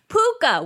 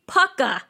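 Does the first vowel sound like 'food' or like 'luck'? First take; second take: food; luck. First: The first vowel sounds like the one in food. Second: The first vowel sounds like the one in luck. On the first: The speaker calls it wrong. "I definitely was saying it wrong" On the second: The speaker calls it right. "that is the proper pronunciation"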